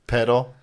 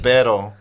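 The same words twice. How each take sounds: First: Tongue-tied "Pero" that comes out with a d; slipped "pero". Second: Careful, emphatic attempt at "pero". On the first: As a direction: say "Pero" almost as "pedo". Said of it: "almost like I said". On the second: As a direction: try hard for the tapped r in "pero". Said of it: "I tried to say pero". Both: Shown as a demonstration.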